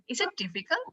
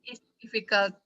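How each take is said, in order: First: The voice rises at the end. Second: The voice does not rise at the end. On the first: It is a real question. The speaker calls it right. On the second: It does not sound like a question. The speaker calls it wrong. "Dewi nggak akan jawab. Karena tuh nggak kayak nanya gitu kan"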